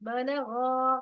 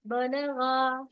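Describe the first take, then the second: First: बलगा again with a thick ग and a drawn गा; heavy ग in बलगा. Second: बलगा with a thick, full-mouth ग and a long गा; heavy ग in बलगा. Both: Shown as a demonstration. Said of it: "ग, ग कैसा है?".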